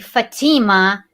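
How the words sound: The name is said with an American pronunciation. "In America, they pronounce my name Fatima"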